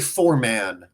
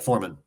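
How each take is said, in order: First: The final syllable 'man' is said fully and clearly. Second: The final syllable 'man' is reduced and weak. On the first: The spelling of the word is made obvious. "pronouncing words in such a way that makes it obvious what letters are in them" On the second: This is how it is said in everyday speech. "in normal conversation you just be like"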